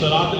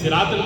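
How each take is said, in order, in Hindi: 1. s एक गहरी, भारी 'swad' ध्वनि है। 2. s एक सादी, हल्की 'seen' ध्वनि है। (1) "की जगह" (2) "पढ़ते हैं"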